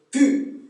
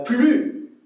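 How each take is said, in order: First: "plus" without the l, as "pu"; Québécois pronunciation. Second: Said in the usual way. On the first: Shown as a demonstration. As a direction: drop the l in "plus". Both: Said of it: "c'est plus".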